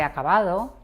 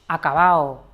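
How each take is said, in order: First: It is said with the standard pronunciation. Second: It is said with a regional, dialectal pronunciation. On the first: The speaker calls it right. "acercarnos al estándar" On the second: The speaker calls it wrong. "Esto serían rasgos muy específicos de un acento"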